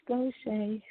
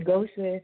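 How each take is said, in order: First: The name ends in an ay sound. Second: The name does not end in an ay sound. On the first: The speaker calls it right. "no, it's Gaucher" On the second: The speaker calls it wrong. "They say Gaucher"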